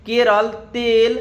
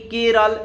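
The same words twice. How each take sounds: First: Kerala said slowly, each syllable drawn out, then तेल; slow demo. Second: Said in the usual way. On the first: Shown as a demonstration. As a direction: stretch out Kerala and तेल for the class. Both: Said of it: "जैसे कि केरल".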